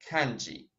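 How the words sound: It is pronounced with an English pronunciation. "По-английски будет все равно kanji"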